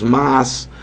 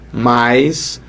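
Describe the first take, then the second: First: The vowel is a plain a sound. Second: The vowel glides into an i sound. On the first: This is the form northeasterners do not use. "nós nordestinos não falamos mas" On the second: This is how northeasterners say it. "nós falamos mais"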